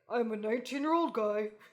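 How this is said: It is said in a put-on guy voice.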